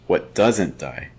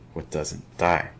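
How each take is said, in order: First: The stress is on "doesn't". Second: The stress is on "die".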